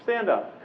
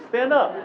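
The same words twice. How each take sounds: First: Said in the usual way. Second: Insistent call. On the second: Real, not acted. Coaches, seriously.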